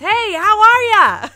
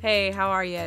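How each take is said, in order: First: It is yelled loudly. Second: It is said at a normal, quiet volume.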